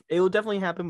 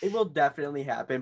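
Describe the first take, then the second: First: Louder and faster restatement; louder, faster insistence. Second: Said in the usual way. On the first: Shown as a demonstration. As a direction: repeat it louder and faster for emphasis.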